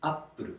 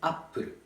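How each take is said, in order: First: It is said with a Japanese accent. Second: It is said with a Japanese accent.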